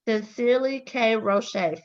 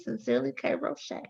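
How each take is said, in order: First: It is said louder. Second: It is said at normal, softer volume.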